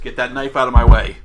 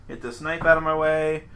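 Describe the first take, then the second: First: It is said in a threatening tone. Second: It is said in a calm, plain tone.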